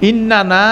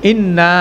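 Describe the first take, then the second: First: The word is said in full with both n syllables. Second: The word is shortened with one n syllable dropped. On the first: "ইন্নানা হচ্ছে actual version" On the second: "এটা short version"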